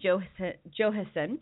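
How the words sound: The name is said with an English J sound. "I'm going to just put the J in"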